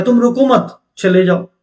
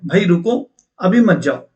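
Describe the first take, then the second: First: "रुको मत" run together, then break before "चले जाओ"; phrased as "don't stop". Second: Group it as "भाई रुको", then "अभी मत जाओ"; phrased as "stop, don't go". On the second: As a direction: break after "रुको", keeping "अभी मत जाओ" together. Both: Shown as a demonstration. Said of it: "दो मीनिंग हो सकते हैं".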